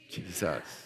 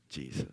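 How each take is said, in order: First: It is said loudly. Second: It is said softly.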